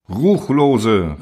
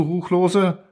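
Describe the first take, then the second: First: Louder, falling accusing cry; exclaiming. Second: "Ruchlose" thrown up high as a disbelieving question; outraged question. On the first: The eldest denounces the iron machine, loud falling cry. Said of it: "rief der Älteste der Erlauchten aus". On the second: The council confronts the machine, high incredulous "Ruchlose?". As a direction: ask "Ruchlose?" with a steep high rise. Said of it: "erzitterte der ganze Durinal ... und rief". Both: A narrator's reading.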